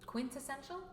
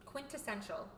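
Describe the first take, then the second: First: Soft "Quintessential?" with rising pitch at the end; questioning. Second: Soft "Quintessential" with falling pitch at the end; confirming. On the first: Checking a hard word, "Quintessential" said softly as a question. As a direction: try out "Quintessential" as a question, unsure. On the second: Confirming a hard word, "Quintessential" said softly with a fall. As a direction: settle "Quintessential" as a quiet statement. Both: Real, not acted.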